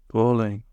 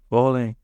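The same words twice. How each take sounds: The two takes are said the same way.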